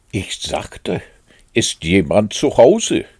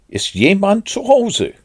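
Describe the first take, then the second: First: Firm, louder repeated call. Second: High, loud call into a hole. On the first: Pooh repeats his question into the hole, calling very loud. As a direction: repeat it, hitting the question loudly. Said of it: "rief Puh sehr laut". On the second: Pooh calls into Rabbit's hole, calling out. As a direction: call out high to see who's home. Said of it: "und rief". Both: A narrator's reading.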